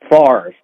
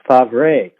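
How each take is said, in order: First: The R sound comes before the V sound. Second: The R sound comes after the V sound. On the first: This is how the name is usually said. "as if it's F R A R V E, and it is not" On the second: This is how the family originally said the name. "the way his last name used to be pronounced from his father and grandfather"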